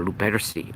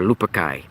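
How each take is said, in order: First: Luperci said loo-PET-er-see, ending in "see"; alternative pronunciation. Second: Luperci said LOO-per-kai, ending like "sky"; hard k in Luperci, ending "kai"; alternative pronunciation. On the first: Host offering one way to say the society's name, Luperci ending in "see". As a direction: end Luperci on a soft-c "see". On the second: Host offering another way to say the society's name, Luperci ending in "kai". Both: Shown as a demonstration. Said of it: "you could pronounce it different ways".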